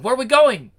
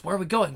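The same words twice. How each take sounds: First: Higher and louder, eager; excited louder repeat. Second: Said in the usual way. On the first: Acted. Henchman eagerly repeats his question to the devil, louder. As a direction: ask again with a burst of eagerness.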